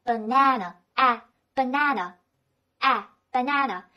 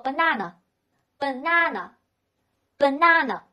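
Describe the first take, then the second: First: American "banana", middle a as in "cat"; American accent. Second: British "banana", middle a a long "ah"; British accent. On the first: Teacher models the phonetic reading for learners, American accent. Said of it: "这是美国人习惯的说法". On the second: Teacher repeats the word for learners, British accent. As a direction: say "banana" slowly, British style. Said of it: "在英式发音当中呢". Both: Shown as a demonstration.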